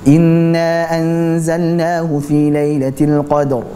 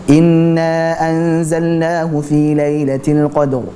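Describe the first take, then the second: First: The nasal sound in inna is held long. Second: The same.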